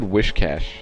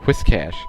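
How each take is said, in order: First: The first syllable sounds like 'wish'. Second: The first syllable sounds like 'whis' in whiskers. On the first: The speaker calls it wrong. "I always said Wishcash. Like, wish" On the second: The speaker calls it right. "But no, it's Whiscash. Which kind of makes sense because it has whiskers"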